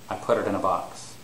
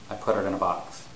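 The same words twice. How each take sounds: First: The words are linked together smoothly, with the t sounding like a d. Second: The words are linked together smoothly, with the t sounding like a d.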